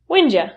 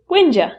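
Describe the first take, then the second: First: The words blend together into a shortened form. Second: The same.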